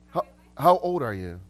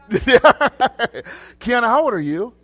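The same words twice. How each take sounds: First: Said in the usual way. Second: High, loud, through laughter; real laughing question. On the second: Real, not acted. Preacher asks a congregant her age, laughing loudly. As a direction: ask it while cracking up.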